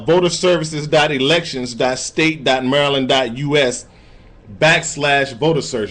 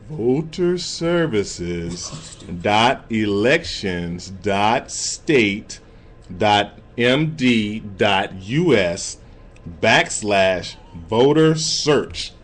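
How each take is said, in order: First: It is said at normal speed. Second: It is said slowly.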